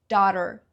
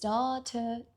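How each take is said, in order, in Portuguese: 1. O T do meio é suavizado, quase como um D. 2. O T do meio é pronunciado de forma clara e nítida. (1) "no inglês americano tem essa pronúncia" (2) "Ela diz esse T"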